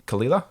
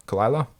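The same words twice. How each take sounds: First: "Kalila" with an EE in the stressed middle; tentative kuh-LEE-luh for "Kalila"; unsure pronunciation. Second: "Kalila" with an EYE in the stressed middle; second guess, kuh-LIE-luh, for "Kalila"; alternative pronunciation. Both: Real, not acted. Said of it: "however you pronounce that".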